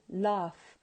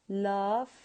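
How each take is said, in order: Both takes have the same delivery.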